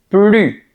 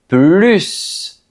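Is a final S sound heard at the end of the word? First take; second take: no; yes. First: The word ends without an S sound. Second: The word ends with an audible S sound. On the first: It means no longer, as a negation. "on prononce plus parce que c'est une négation" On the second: It means more, wanting an increase. "On veut augmenter. Dans ce cas, on prononce plus"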